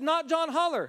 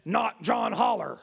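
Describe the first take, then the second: First: High-pitched retelling by a rattled caller; agitated caller quoting. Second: Slow, lightly voiced demon; measured, drawn-out answer from a demon; demonic voice. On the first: Retold or imitated. Psychologist reports the voice to the pastor, agitated. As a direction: repeat it urgently, pitched well up. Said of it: "The voice said". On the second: Demon answers the psychologist's question, slow eerie voice. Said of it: "And the voice said".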